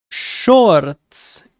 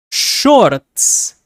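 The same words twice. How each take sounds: First: Shorts repeated slowly with a Spanish accent. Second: Shorts with a rolled Spanish accent. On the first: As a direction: give shorts a Spanish sound. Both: Shown as a demonstration. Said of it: "put a Spanish accent to it".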